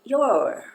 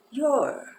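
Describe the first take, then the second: First: Your said as a short rounded o, louder and higher; teacher modeling your; pronunciation demo. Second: Your whispered as a short o sound; teacher whispering your again; whispered repeat. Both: Shown as a demonstration. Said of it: "E a pronúncia é".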